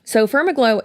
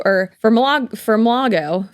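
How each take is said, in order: First: "Firmaglow" said clearly as FIRM-a-glow; correct pronunciation. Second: "Firmlago" said with the syllables jumbled, stress misplaced; wrong pronunciation. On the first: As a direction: give "Firmaglow" its proper shape, firm then glow. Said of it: "it said Firmaglow". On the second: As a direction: stumble into "Firmlago" as she used to misread it. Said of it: "putting the wrong emphasis on the wrong syllable". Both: Shown as a demonstration.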